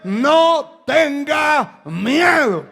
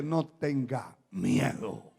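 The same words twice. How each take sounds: First: Loud, high, slow preacher's shout; rousing exhortation. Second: Low, soft, slow reassurance; calm prophet. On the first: Real, not acted. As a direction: hammer each word out to the congregation. Preacher exhorts his listeners. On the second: Retold or imitated. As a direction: quote the prophet quietly and steadily. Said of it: "el profeta le dice".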